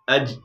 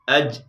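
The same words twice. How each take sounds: Both takes have the same delivery.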